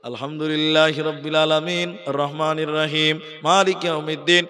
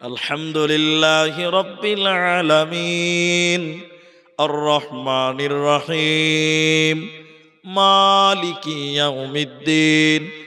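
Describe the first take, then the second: First: It is recited very fast with brief breaths. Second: It is recited slowly in separate, chopped pieces. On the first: The prayer would finish quickly enough. "ও প্রত্যেক জায়গাতে দম দিচ্ছে কিন্তু খুব তাড়াতাড়ি।" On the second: The prayer would take far too long. "কেটে কেটে কেটে কেটে আস্তে আস্তে বলছে।"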